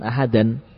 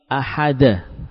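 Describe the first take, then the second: First: The word ends with an added n sound. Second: The word ends in a vowel with no n. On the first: The speaker calls it wrong. "bukan ahadan" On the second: The speaker calls it right. "Ahada, bukan ahadan"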